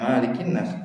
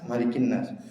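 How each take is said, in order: First: The first vowel of Malikin is drawn out long. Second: The first vowel of Malikin is kept short. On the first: The speaker calls it wrong. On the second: The speaker calls it right.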